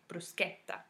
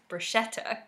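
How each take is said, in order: First: The ch is said as a hard k. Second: The ch is said without a hard k. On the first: This is the Italian way of saying it. The speaker calls it right. "in Italian, CH is pronounced as a hard K sound. So it's actually bruschetta" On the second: This is the usual English way of saying it. The speaker calls it wrong. "in English, we often pronounce it as bruschetta"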